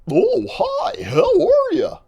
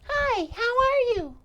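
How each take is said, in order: First: It is said in a goofy voice. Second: It is said in a girlish voice.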